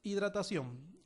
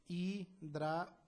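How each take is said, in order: First: Said in the usual way. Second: Hidratación split slowly into hi-dra-ta-ción; syllable by syllable. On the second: Shown as a demonstration. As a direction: break Hidratación into its syllables, pausing between them. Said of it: "descomponer en sílabas".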